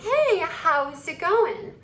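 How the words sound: It is said in a feminine voice with long S.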